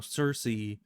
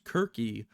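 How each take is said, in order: First: The name starts with a soft S sound. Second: The name starts with a hard K sound.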